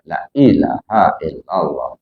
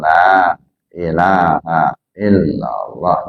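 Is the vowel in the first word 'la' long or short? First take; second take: short; long. First: The vowel in the first word is cut short. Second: The vowel in the first word is held long. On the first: The speaker calls it wrong. "di kawan baca" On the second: The speaker calls it right. "lam itu panjang"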